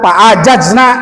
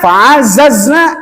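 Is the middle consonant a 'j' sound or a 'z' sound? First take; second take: j; z. First: The middle consonant is a 'j' sound. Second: The middle consonant is a 'z' sound. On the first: The speaker calls it wrong. "Jangan fa'ajazna" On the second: The speaker calls it right. "Za dari ujung lidah antara gigi atas dengan gigi bawah"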